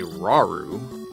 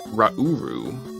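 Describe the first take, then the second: First: The name is said just as it is spelled. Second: The name is said to rhyme with Naburu. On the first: This is the habitual way of saying it. The speaker calls it wrong. "I always say Raru, like it's spelled" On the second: This is the reportedly correct way of saying it. The speaker calls it right. "actually pronounced Rauru, which rhymes with Naburu"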